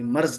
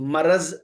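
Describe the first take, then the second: First: No vowel is heard between r and z. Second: A short vowel is heard between r and z. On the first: The speaker calls it wrong. "Both of these pronunciation are wrong" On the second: The speaker calls it right. "That is मरज़"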